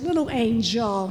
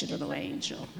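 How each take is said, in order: First: Said in the usual way. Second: Breathy whispered repeat of little angel, the word little barely voiced; whispered tenderly as the Lord's words. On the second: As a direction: hush it to a soft whisper, as if leaning in close.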